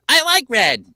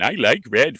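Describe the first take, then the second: First: It is said in a higher voice. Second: It is said in a lower voice.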